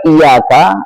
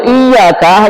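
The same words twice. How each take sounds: First: "iyyaka" lower, with one light y, i-yaka; without tasydid. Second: "iyyaka" with a held double y, iy-yaka; with tasydid. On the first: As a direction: let the y of "iyyaka" slip by undoubled. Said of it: "membacanya tanpa tasydid". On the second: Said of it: "hanya kepadamu". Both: Shown as a demonstration.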